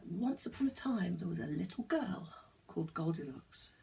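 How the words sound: It is said with lively, dramatic expression.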